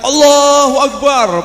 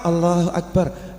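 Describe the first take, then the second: First: It is shouted loudly. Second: It is said quietly.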